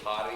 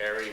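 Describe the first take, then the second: First: The name is said in a Paiute accent. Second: The name is said in a plain English accent. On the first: This is how the elders said the name. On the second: This is the name as written in English.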